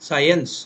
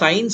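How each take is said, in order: First: The vowel is a longer three-part glide. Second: The vowel is a short two-part glide. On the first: The speaker calls it right. "ఇది సైన్స్, సైన్స్ అది original pronunciation" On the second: The speaker calls it wrong. "సైన్స్ అంటాం కదా, సైన్స్ అనకూడదు యాక్చువల్గా"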